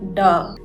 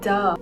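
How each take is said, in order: First: The sound is deep and resonant from the chest. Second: The sound is soft and light. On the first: "much deeper, resonating from the throat and chest, like a much more grounded duh" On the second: "it's a soft duh, barely touching the throat"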